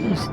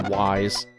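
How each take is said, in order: First: The name does not sound like 'wise'. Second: The name sounds like the English word 'wise'. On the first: The speaker calls it right. "it's apparently supposed to be Ys" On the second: The speaker calls it wrong. "I used to say Wise"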